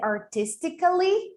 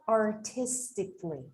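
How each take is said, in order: First: The 'a' before the final syllable is pronounced. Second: The 'a' before the final syllable is silent. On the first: The speaker calls it wrong. "the thing here is not to say artistically" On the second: The speaker calls it right. "it would sound like artistically"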